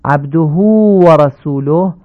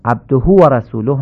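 First: «عبده» with the hu drawn long, slow; slow, lengthened hu; correct lengthening. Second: «عبده» with the hu cut short, quicker; clipped, unlengthened hu; wrong clipped vowel. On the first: Teacher recapping the right «عبده». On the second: Teacher recapping the clipped «عبده» mistake. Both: Shown as a demonstration. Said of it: "نشه".

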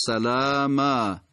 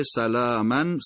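First: سلاما slowly, ending in long "āā"; pausal substitution form. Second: سلامن as "salāāman", ending in n; continuing tanwin form. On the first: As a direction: drop the n, open سلاما to "salāāmā". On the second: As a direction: sound the -an of سلامن, not stopping. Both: Shown as a demonstration.

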